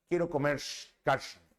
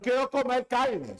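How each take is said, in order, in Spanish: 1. La R se pronuncia a la boliviana. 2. La R se pronuncia de forma estándar. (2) "ya no"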